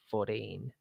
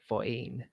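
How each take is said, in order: First: The T is said like a D. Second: The T is replaced by a glottal stop. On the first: This is how Americans say it. "In American, you tend to use a D instead of a T" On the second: This is how the speaker's native accent says it. "like it's a glottal stop instead of"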